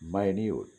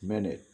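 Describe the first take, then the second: First: It is said like 'my-NEWT', with a long vowel. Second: It is said like 'MIN-it', with a short vowel. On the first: Something tiny or insignificant. "নগণ্য, little" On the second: A short moment of time. "মুহূর্ত বা moment"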